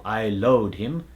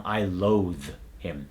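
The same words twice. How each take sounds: First: "loathe" said as "load"; D substitution. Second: "loathe" slow, with a buzzing TH end; final voiced TH. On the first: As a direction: end "loathe" on a hard D, slowly. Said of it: "For example". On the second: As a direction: hold the TH in "loathe" before "him". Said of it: "it's gonna become". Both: Shown as a demonstration.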